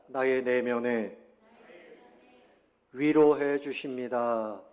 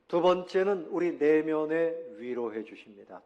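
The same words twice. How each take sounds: First: Slow and louder, each word spaced for the congregation to echo; slow lead for repeating. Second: Said in the usual way. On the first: Shown as a demonstration. Pastor leading the congregation in repeating, slow and louder. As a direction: spell it out slowly and loudly so all can follow. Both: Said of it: "따라해 봅시다".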